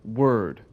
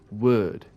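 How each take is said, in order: First: It is said with an American accent, R pronounced. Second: It is said with a British accent, R dropped. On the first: "in America" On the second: "if you're a Brit"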